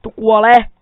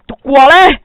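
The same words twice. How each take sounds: First: Much louder yell, pitch near normal; battle shout. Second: High, much louder yell with an odd put-on edge; battle shout. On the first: Gamer strikes again, plain loud battle cry. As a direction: bark the kill cry at the animal. Player attacking animal again. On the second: Gamer kills a pig, shrill put-on battle shout. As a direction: yell it at the pig as you strike. Player attacking pigs in game. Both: Real, not acted.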